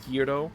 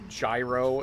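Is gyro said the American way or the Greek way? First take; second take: Greek; American. First: It is said with a Greek-style pronunciation. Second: It is said with an American pronunciation.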